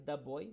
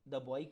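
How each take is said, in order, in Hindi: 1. 'The' को छोटे 'thuh' स्वर के साथ बोला जाता है। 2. 'The' को छोटे 'thuh' स्वर के साथ बोला जाता है।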